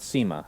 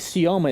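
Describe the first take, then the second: First: The name is pronounced like Sema. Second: The name is pronounced like Sioma. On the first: The speaker calls it wrong. "It's not Sema" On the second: The speaker calls it right. "apparently Sioma is the way you pronounce it"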